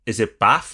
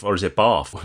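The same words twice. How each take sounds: First: "Bath" with a short flat a, as in cat; "Bath" with the short northern a. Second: "Bath" with a long ah, as in father; "Bath" rhyming with hearth, r silent; southern "Bath". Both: Shown as a demonstration. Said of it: "I'm probably gonna interchange".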